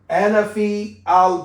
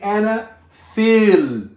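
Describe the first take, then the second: First: The vowel of fi is kept separate from al. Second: The vowel of fi runs straight into the l. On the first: The speaker calls it wrong. "Don't say ana fi al bait" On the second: The speaker calls it right. "Say ana fil"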